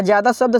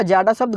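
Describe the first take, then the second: First: ज़्यादा as "jyaa-daa", the correct form; correct pronunciation. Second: जाडा as "jaa-ḍaa", the misreading; incorrect pronunciation. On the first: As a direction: pronounce ज़्यादा with y after j and a dental द. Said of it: "वही शब्द जो है सही होता है". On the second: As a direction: say जाडा without the y glide, with hard retroflex ḍ. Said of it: "जाडा शब्द गलत हो जाएगा". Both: Shown as a demonstration.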